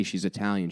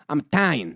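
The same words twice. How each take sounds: First: Said in the usual way. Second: Clipped "I'm 'talian" in Staten Island style; mock Staten Island accent. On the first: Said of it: "she doesn't say she's Italian". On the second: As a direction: drop the first vowel of "Italian", Staten Island style. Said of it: "she doesn't say she's Italian? She goes".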